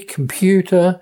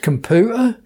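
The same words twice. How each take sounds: First: A y sound follows the p. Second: The p goes straight into oo, no y. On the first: This is the standard English way. "in standard English would have a y sound" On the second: This is the local dialect way. "it's computer"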